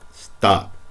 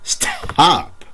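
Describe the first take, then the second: First: The t is said without a puff of air. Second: The t is said with a strong puff of air. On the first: The speaker calls it right. "Isolate that T" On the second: The speaker calls it wrong. "we don't say"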